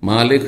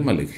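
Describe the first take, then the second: First: The first vowel is drawn out long. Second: The first vowel is short. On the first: "খাড়া জাবার ওর উপরে দিলে, দিয়ে পড়লে কি হয়ে যাবে" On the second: "আর না হলে"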